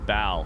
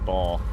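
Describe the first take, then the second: First: The name is said like 'Bao'. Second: The name is said like 'ball'. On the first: The speaker calls it right. "They said Bao" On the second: The speaker calls it wrong. "I've been saying ball"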